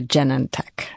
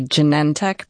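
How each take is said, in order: First: Genentech as JEN-en-tek; stress on first syllable. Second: Genentech as juh-NEN-tek; stress on second syllable. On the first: CEO allowing the other way, Genentech said JEN-en-tek. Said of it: "could also be a Genentech as well". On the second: CEO giving her own preference, Genentech said juh-NEN-tek. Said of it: "People say both". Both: Shown as a demonstration.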